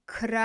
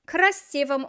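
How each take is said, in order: First: Syllable by syllable. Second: Said in the usual way. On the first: Shown as a demonstration. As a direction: break красивом into kra, si, vom. Teacher builds the new word slowly.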